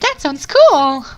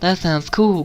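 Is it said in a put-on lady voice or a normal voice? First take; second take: lady voice; normal voice. First: It is said in a put-on lady voice. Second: It is said in the speaker's normal voice.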